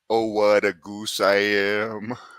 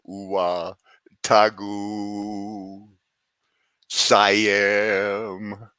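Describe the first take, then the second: First: The phrase is said quickly and run together. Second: The phrase is said slowly in separate chunks. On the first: The speaker unknowingly calls themself a goose. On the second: It sounds like a meaningless magic chant.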